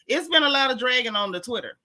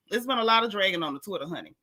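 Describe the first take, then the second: First: Said in the usual way. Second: Fast sassy repeat. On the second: Real, not acted.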